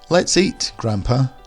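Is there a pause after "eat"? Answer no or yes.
yes. There is a clear pause after the word eat. The speaker invites grandfather to eat together. "we're asking grandfather to eat with us"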